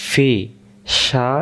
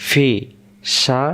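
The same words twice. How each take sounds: The two takes are said the same way.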